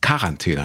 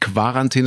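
First: The word begins with a plain 'k' sound. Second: The word begins with a 'kw' sound. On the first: The speaker calls it right. "es heißt Quarantäne" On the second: The speaker calls it wrong. "es heißt nicht Quarantäne"

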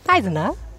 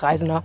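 First: The voice goes up high on the name. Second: The voice stays low on the name.

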